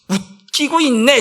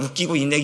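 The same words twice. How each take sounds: First: It is said in a mocking, sneering tone. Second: It is said in a plain, neutral tone.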